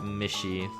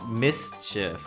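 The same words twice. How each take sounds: First: The middle consonant is said as sh. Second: The middle consonant is not said as sh. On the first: The speaker calls it wrong. "and not mischief" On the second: The speaker calls it right. "it's mischief"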